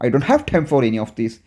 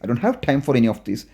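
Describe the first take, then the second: The two takes are said the same way.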